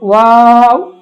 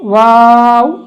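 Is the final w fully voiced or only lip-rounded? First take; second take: lip-rounded; lip-rounded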